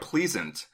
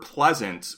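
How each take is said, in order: First: It is said in a New Zealand accent. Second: It is said in the speaker's ordinary accent.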